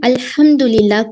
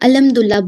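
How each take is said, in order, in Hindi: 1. h की आवाज़ मज़बूत और साफ़ है। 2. h की आवाज़ कमज़ोर और अस्पष्ट है।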